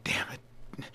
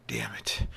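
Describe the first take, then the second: First: Soft unvoiced whisper, near silent; just breathe it out; whispered curse again. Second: Low unvoiced whisper; whispered curse. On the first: Harvey repeats the curse, barely audible whisper. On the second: Harvey curses at the clock in a whisper. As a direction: breathe the curse under his breath. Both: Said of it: "he says again".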